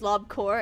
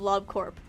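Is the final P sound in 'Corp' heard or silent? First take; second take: silent; heard. First: The word ends without a P sound. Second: The word ends with a P sound. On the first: The speaker calls it wrong. "pronounce it as Lob Corps" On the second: The speaker calls it right. "instead of Lob Corp"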